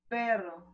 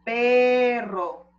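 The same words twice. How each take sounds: First: The word is articulated loosely and unclearly. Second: The word is articulated clearly and fully. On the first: The speaker calls it wrong. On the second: The speaker calls it right. "así"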